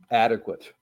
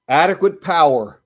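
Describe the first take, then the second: First: Adequate said low and slow; slow repeated verdict. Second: Adequate punched louder; stress on Adequate. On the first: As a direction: let Adequate drop low, then pause. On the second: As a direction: hit Adequate hard and let it fall. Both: Shown as a demonstration.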